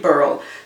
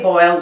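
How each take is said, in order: First: The vowel is pronounced as er. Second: The vowel is pronounced as oy. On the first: "we say burl" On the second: "we don't say boil"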